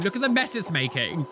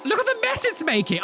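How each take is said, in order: First: Said in the usual way. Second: Much higher, stunned at the mess; "Look at the mess it's making" blurted high in disbelief; shocked exclamation. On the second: Real, not acted. Reacting to the coffee machine spilling, high and incredulous.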